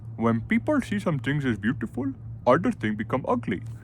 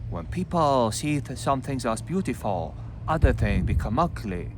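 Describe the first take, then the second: First: It is read in an Indian accent. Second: It is read in a Chinese accent. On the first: "I don't know Indian" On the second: "read with the Chinese accent"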